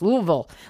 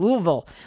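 First: The name is mumbled with its sounds slurred together. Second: The same.

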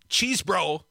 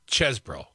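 First: The first vowel is a long 'ee' sound. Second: The first vowel is a short 'e' sound. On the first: The speaker calls it wrong. "It's not cheese, bro" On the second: The speaker calls it right. "the E, ease, is like dessert, not desert"

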